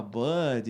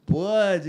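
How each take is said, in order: First: Said in the usual way. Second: "Bud" imitated higher and much louder, the way the Norwegian said it; mock foreign "Bud", higher and louder; foreign pronunciation. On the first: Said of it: "Aí eu falava". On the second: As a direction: copy the tourist's "Bud", pitched up and punched out loud. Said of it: "totalmente diferente".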